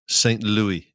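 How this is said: It is said the English way.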